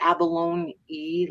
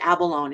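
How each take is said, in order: First: The word ends with an added 'ee' sound. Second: The word ends without a final 'ee' sound. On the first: "like with the e" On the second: "I always say abalone"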